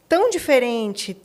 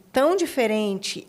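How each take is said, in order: Both takes have the same delivery.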